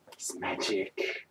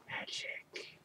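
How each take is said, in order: First: Soft, slow hushed voice; awe-struck hush about magic; hushed mystery. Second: Unvoiced breathy whisper of magic; spooky whispered echo; eerie whisper. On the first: Acted. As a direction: breathe out the mystery. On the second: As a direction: whisper it like a spell.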